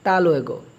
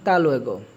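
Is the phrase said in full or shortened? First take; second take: shortened; shortened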